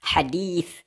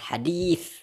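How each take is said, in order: First: The middle consonant is a lisped th sound. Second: The same.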